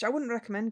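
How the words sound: It is spoken in a Scottish accent. The speaker calls it right. "I want to go freaking Scottish"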